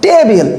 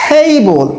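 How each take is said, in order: First: Table with a hard Bengali ট; unaspirated t. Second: Table with a breathy th at the start; aspirated t. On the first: Teacher showing the wrong table to students. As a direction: say table with a flat ট, no air. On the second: Teacher showing correct table to students. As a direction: blow air on the t of table. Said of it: "এটা হবে". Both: Shown as a demonstration.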